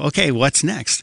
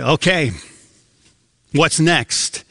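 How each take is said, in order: First: It sounds eager and excited. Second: It sounds weary and apprehensive.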